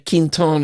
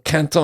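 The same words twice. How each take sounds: First: The name is said in a Northern way. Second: The name is said in a French way. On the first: "is what the Northerners say" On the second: "is what the French say"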